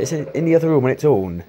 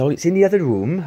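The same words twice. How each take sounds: First: Put-on high, loud Welsh accent, a bit hammy. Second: Put-on high, loud amateur Welsh accent; a weak go at a Welsh woman's accent. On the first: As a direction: keep up the rough Welsh accent. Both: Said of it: "I can't do a very good Welsh accent".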